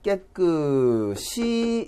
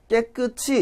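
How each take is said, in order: First: The final consonant is carried into the next syllable. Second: The final consonant is not carried into the next syllable. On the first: The speaker calls it right. "뒤에가 그대로 연음으로 발음이 되거든요" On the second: The speaker calls it wrong. "이렇게 잘못 발음하거든요"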